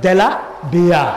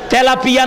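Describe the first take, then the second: First: It is said with 'd' and 'b' sounds. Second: It is said with 't' and 'p' sounds. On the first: The speaker calls it wrong. "কয় দেলা বিয়া" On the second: The speaker calls it right. "নামটাও কইতে পারলো না"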